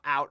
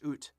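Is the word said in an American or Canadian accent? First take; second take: American; Canadian. First: It is said in an American accent. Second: It is said in a Canadian accent.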